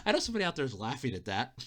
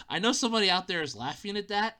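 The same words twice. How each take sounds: First: Laughing. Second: Said in the usual way. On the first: Real, not acted. Said laughing, then repeated.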